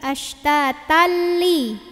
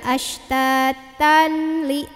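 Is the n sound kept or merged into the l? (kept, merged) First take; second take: merged; kept. First: The n sound merges into a doubled l. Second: The n sound is kept before the l. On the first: The speaker calls it right. "tapi ashtatalli" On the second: The speaker calls it wrong. "enggak ashtatanli"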